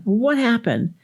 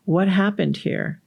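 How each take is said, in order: First: High, demanding parent's question; mock cross parent wanting an explanation; scolding question, pitch jumping up; yelling parent. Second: Put-on slow, even question to a child; acted patient mother gently asking; unhurried, non-accusing parental question; calm mom. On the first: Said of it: "the parent is yelling at the child". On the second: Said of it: "let me tell the story a different way".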